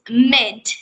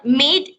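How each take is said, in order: First: The vowel is a short i sound. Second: The vowel is a long ee sound. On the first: The speaker calls it right. "it's mid" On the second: The speaker calls it wrong. "not mid, ... It's not long e sound"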